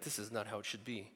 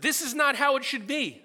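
First: Muttered complaint. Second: Indignant complaint. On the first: Grumbling in grocery line. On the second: Shaking fists at God. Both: Retold or imitated.

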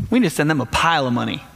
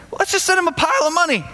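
First: Said in the usual way. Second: Much higher, breezy and quick; mock-casual leaders. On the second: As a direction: toss it off like it's nothing, pitched way up. That's pretty funny, right there.

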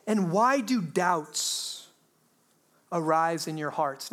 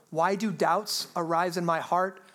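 First: Drawn-out, deliberate reading of the question; slow scripture reading. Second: Said in the usual way. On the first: Shown as a demonstration. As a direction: let the question hang slowly. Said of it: "Now, that is a great question". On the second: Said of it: "It's very reasonable".

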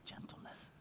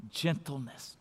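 First: Breathy whisper, barely audible; whispered gentleness. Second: Much softer, tender delivery; soft gentle voice. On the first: Pastor modelling gentleness for the congregation, in a whisper. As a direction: whisper it tenderly. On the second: Pastor modelling gentleness for the congregation, hushed and tender. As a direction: say it softly, like soothing a child. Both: Shown as a demonstration. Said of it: "a gentle tone of voice".

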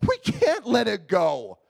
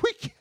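First: Slowed, insistent repeat of "we can't let it go"; pleading "we can't let it go", slowed down; slow emphatic repeat. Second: Said in the usual way. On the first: Retold or imitated. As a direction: lean into "we can't let it go", drawn out.

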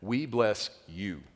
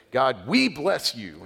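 First: Slow, even "we bless", landing on "you"; stress on YOU. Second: "we" drawn out high and loud; stress on WE. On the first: Shown as a demonstration. Preacher correcting the emphasis, weight moved onto "you". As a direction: set "you" apart, slowly and more restrained. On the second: Retold or imitated. People praying with self-focus, heavy stress on "we". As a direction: lean hard on "we", stretching it slowly. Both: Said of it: "change the emphasis and pronouns there".

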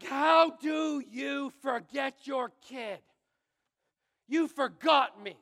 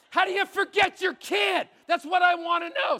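First: Put-on angry kid. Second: Shouted high and loud, half joking; bitter outburst. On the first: Boy shouting at his parents who came late, slow angry yell. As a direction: drag out every word at them. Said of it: "I'm both relieved and angry". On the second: Real, not acted. Pastor shouting to the congregation about being forgotten, bitter yell. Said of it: "Can you tell I'm still bitter?".

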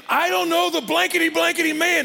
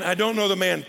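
First: High, loud, exasperated outburst; angry cursing denial. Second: Said in the usual way. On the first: Acted. Peter's third denial of Jesus by the fire, furious. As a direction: blurt it out hotly, swearing you don't. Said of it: "he calls down curses on himself".

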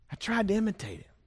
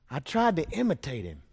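First: Lifted higher and quicker on the repeat. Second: Said in the usual way. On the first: Shown as a demonstration. Preacher repeating the line to the congregation, higher and faster. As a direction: echo it higher and faster, like a boy copying his daddy.

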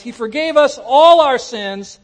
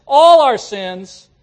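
First: Said in the usual way. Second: "all" stretched slow and louder; stress on all. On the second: Shown as a demonstration. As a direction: lean hard on "all", draw it out. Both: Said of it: "the word all means all".

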